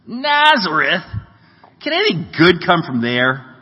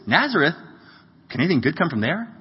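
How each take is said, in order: First: The voice sounds cynical and dismissive. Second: The voice sounds excited and positive. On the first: The speaker doubts that anything good comes from the town. "I've always thought it was the first" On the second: The speaker is pleasantly surprised that something good comes from the town. "Or maybe he said it like this"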